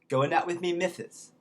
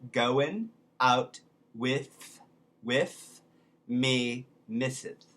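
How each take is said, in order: First: It is said at normal speed. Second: It is said slowly.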